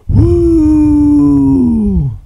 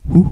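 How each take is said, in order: First: The woo is long, loud and drawn out. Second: The woo is short and clipped.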